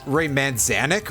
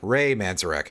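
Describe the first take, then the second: First: The surname has an N sound before the end. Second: The surname has an R sound before the end. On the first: The speaker calls it wrong. "I thought it was Ray Manzanek with an N instead of an R" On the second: The speaker calls it right. "There we go"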